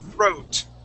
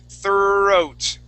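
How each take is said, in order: First: The word is said short and quick. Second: The word is said slowly and drawn out. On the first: "shorten it up" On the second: "Let's space it out again"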